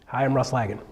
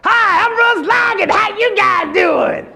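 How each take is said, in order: First: Said in the usual way. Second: Much higher, louder, slow shouted intro; way too much. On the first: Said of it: "Do one". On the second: Shown as a demonstration. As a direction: blow it out like a game show host. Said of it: "Little more bump".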